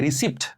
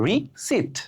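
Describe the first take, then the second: First: রিসিপ্ট with the p sounded, "ri-sipt"; common mispronunciation. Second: রিসিপ্ট with silent p, "ri... sit", high start then falling; correct pronunciation. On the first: Teacher showing what we call a receipt, mispronounced. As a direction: say রিসিপ্ট with p before t. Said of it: "রসিদের ইংরেজি আমরা বলি". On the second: Teacher answering with the right form, correctly pronounced. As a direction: split রিসিপ্ট in two, no p. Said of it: "এর সঠিক উচ্চারণ কি হবে". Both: Shown as a demonstration.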